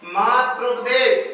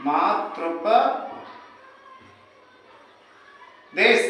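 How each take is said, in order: First: मातृपदेश said slowly, each syllable laid out; slow demo. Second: मातृपदेश stretched very long and soft, falling at the end; very drawn out. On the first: Teacher to students spelling out the joined word, slow. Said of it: "मातृधन उपदेश बराबर". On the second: Teacher to students dragging out the answer, very slow and soft. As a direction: drag मातृपदेश out syllable by syllable. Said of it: "तो क्या हो जाएगा?". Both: Shown as a demonstration.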